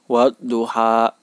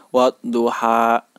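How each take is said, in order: The two takes are said the same way.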